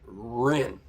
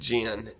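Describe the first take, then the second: First: The name begins with an R-like sound. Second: The name begins with a J sound. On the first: This is how it is said in Taiwan and China. "in Chinese, you is pronounced Rin" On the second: This is how it is said in America. "in American, it's pronounced Jin, J E N"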